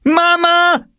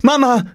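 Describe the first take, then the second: First: Very high, loud shriek for mother; screaming. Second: High, louder call for mother. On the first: Furious girl summons mother against brother, screaming. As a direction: scream it out as an outraged tattletale. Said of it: "schrie Jule". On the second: Upset girl runs to her mother, calling out. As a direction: call urgently in a high girl's voice. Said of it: "rief sie". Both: A narrator's reading.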